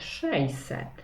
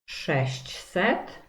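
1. Środkowa grupa jest jeszcze bardziej uproszczona. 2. Każda spółgłoska w środkowej grupie jest wymawiana.

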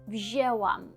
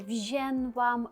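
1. Голосний — звичайне е без носовості. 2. Голосний носовий, з додатковим звуком н. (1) "Ми не чуємо там ні Н, ні нічого, ми просто чуємо Еу" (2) "регіональна вимова, інколи вона трапляється, інколи, це просто звичка"

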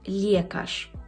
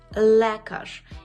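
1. Голосний після L звучить як ye. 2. Голосний після L — звичайне e.

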